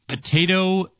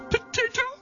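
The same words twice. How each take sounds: First: It is said in the speaker's normal voice. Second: It is said in a Miss Piggy impression.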